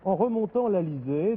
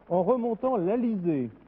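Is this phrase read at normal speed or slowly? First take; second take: normal; slowly. First: It is read at a normal speed. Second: It is read slowly and deliberately.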